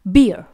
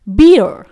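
First: It is British, with no final r sound. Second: It is American, with a final r sound. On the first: "UK का accent ... इसमें कभी भी आर को pronounce नहीं किया जाता है" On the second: "यदि इसे यूएस में बोला जाएगा"

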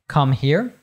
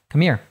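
First: The h sound in 'here' is pronounced. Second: The h sound in 'here' is dropped. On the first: "You might say" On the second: "We completely drop that H sound there"

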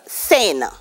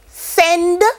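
First: The final d sound is dropped. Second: The final d sound is pronounced. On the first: "Send becomes sen" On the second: "the consonants are at the end and one would be missing"

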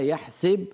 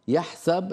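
First: The middle consonant takes an 'i' vowel. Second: The middle consonant takes an 'a' vowel. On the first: This is the reading passed down through another reciter. "يحسب مكسورة السين ومنهم ورش" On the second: This is the reading passed down through one reciter. "يحسب المضارع مفتوح السين ومنهم حفص"

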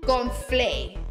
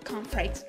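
First: It is pronounced as Spanish, dropping the final consonants. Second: It is pronounced as in English, with final consonants. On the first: "conflay es como decir corn flakes, pero mal dicho" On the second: "Corn flakes de Kellogg's"

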